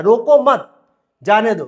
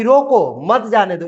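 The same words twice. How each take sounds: First: Loud joined रोको मत, break, then जाने दो; pause after मत. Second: Slow रोको, break, then मत जाने दो; pause after रोको. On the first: Teacher recapping the second sentence, pause after मत. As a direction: run रोको मत together, pause, release जाने दो. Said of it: "ये क्या बोल रहा है". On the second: Teacher recapping the first sentence, pause after रोको. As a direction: set रोको apart, join मत जाने दो. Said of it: "ये बोल रहा है कि". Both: Shown as a demonstration.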